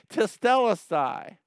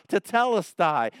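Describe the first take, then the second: First: "Tetelestai" cried out high and loud, falling off; shouting tetelestai. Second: "Tetelestai" called out loud and high, falling at the end; shouting tetelestai. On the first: Preacher repeats Jesus' cry to the church, ringing shout. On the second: Preacher shouts Jesus' word from the cross, loud proclaiming cry. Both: Shown as a demonstration. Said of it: "like shouting it".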